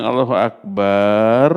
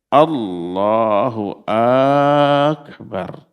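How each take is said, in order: First: The vowel after b in Akbar is long. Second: The first vowel of Akbar is drawn out long. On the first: It turns the phrase into calling God a drum. "Kalau ba-nya panjang" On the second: It turns the phrase into a question asking whether God is great. "panjangnya itu pada akbarnya. Allahnya pendek"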